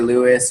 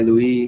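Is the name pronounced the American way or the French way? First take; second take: American; French. First: The name is said with an American pronunciation. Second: The name is said with a French pronunciation. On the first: This is how it is said in the States. "If we're in the States, we say Louis" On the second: This is how it is said in France. "If we're in France, we say Louis"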